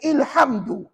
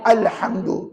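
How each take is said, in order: First: The word begins with an i vowel. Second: The word begins with an a vowel. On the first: The speaker calls it wrong. "maka salah dalam kaedah bacaan" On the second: The speaker calls it right. "kamu kena baca dengan baris satu di atas"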